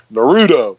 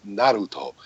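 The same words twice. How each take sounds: First: "Naruto" said the American way, nuh-ROO-doh; pron. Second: "Naruto" as the right, Japanese way; pron. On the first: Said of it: "some dweeby fifty-year-old, so I say". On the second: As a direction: say "Naruto" the correct way. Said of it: "that's the right way to say it". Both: Shown as a demonstration.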